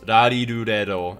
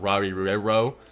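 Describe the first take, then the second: First: The r sounds are light and L-like. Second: The r sounds are hard English-style r. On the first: The speaker calls it right. "it's rari ru re ro" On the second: The speaker calls it wrong. "and not rari ru re ro"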